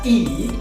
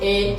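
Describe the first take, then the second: First: The letter is said with an ee vowel. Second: The letter is said with an eh vowel. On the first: "huruf E dibaca I" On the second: "dalam bahasa Indonesia kita"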